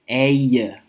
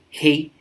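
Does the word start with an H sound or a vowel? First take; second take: vowel; H sound. First: The word starts directly with a vowel. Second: The word starts with a hard H sound. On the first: The speaker calls it right. "They say a" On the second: The speaker calls it wrong. "They don't say hard H's. They don't say hey"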